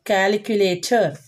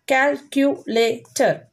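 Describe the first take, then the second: First: Said in the usual way. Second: "Calculator" slowly, in four separate beats; slow "Calculator", a gap after each syllable. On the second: Shown as a demonstration. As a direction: break "Calculator" into cal-cu-la-tor. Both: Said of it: "These are four syllable words".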